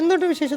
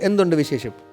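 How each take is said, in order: First: It is said in a higher, thinner, funnier voice. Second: It is said in a plain, normal speaking voice. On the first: This is how it sounds on screen. "പുറത്ത് വരുമ്പോ അങ്ങനെ ആവുന്നു" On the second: This is how he really talks. "വെറുതെ സംസാരിക്കുന്ന"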